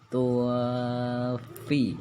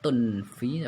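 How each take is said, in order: First: The nasal is faint, lips already shaping the f. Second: A clear n sound is heard before the f. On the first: The speaker calls it right. "bersiap-siap ke huruf fa" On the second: The speaker calls it wrong. "Samar aslinya kan tunfi"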